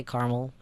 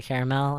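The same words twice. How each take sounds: First: "caramel" as CAR-mul; two syllables in "caramel"; own caramel. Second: "caramel" as CARE-uh-mel; three syllables in "caramel"; rejected caramel. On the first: Telling friend how they say it, two-syllable caramel. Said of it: "I say caramel". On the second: Refusing the other version, three-syllable caramel. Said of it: "never a time I'll say caramel". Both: Shown as a demonstration.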